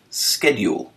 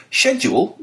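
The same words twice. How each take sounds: First: "schedule" said as SKED-jool with a hard k; "schedule" with an American sk sound. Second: "Schedule" with a British sh sound. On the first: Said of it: "commonly pronounced schedule in the United States". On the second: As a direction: say "Schedule" the British way, SHED-yool. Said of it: "correctly pronounced schedule". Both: Shown as a demonstration.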